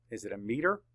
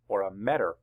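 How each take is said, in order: First: METER with a long "ee": MEE-ter; long vowel. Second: METER mispronounced with short "e": MET-er; short vowel. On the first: Teacher asks class which vowel fits, long-vowel METER. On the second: Teacher offers class the wrong option, short-vowel METER. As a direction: say METER to rhyme with "better". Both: Shown as a demonstration. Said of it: "makes that a long vowel".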